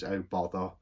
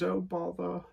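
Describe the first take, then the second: First: Said in the usual way. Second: Much higher, lightly voiced cartoon bear; a quick high-pitched mock of the cartoon bear; Winnie the Pooh voice. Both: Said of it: "like Pooh Bear does".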